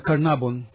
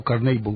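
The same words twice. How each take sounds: First: "Carnarvon" read Spanish-style as kar-na-BON; Spanish-style pronunciation. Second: "Carnarvon" with an ay, kar-NAY-bon; attempted English pronunciation. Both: Shown as a demonstration. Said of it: "¿cómo se pronuncia?".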